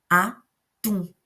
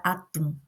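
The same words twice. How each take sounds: First: "Atum" split up, with force on the final "tum"; Atum, syllable by syllable, last one "tum" strongest; stress on TUM. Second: Said in the usual way. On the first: Shown as a demonstration. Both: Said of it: "Eu coloquei mais força no tum".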